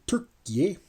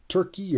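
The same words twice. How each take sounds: First: The name is said with Turkish pronunciation. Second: The name is said with English pronunciation.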